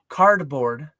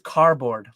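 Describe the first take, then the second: First: The middle D sound is clearly pronounced. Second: The middle D sound is left out. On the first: The speaker calls it right. "There's a D in cardboard" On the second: The speaker calls it wrong. "it's a silent D in the middle"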